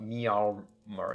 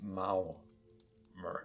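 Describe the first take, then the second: First: The first syllable does not sound like 'Mao'. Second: The first syllable sounds like 'Mao'. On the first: The speaker calls it wrong. "it's not Meow Mer" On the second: The speaker calls it right. "as in Chairman Mao"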